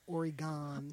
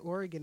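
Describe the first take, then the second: First: The last syllable is fully pronounced. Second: The last syllable is swallowed and reduced. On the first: The speaker calls it wrong. "and not Oregon" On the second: The speaker calls it right. "at least you say Oregon"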